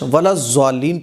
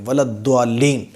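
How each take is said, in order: First: The consonant is sounded like a z. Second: The consonant is sounded like a d. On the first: "ये ज़ा की आवाज़ निकल रही है" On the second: "इसमें दाल की आवाज़ निकल रही है"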